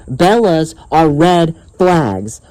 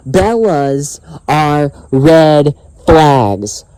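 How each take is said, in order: First: Slow, deliberate statement; emphatic slogan. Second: Very slow, each word set apart; word-by-word emphasis. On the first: Vlogger reminding viewers of his warning, slow and emphatic. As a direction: say "Bellas are red flags" slowly and firmly. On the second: Vlogger hammering home his warning, very slow and emphatic. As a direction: stretch "Bellas are red flags" word by word. Repeats slogan even more slowly. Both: Real, not acted.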